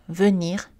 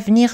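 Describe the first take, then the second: First: The E in the first syllable is pronounced. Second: The E in the first syllable is dropped. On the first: "Voici des exemples isolés, donc juste des mots" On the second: "vous allez entendre que je les laisse tomber, je ne prononce pas la lettre E"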